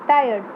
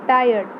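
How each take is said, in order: The two takes are said the same way.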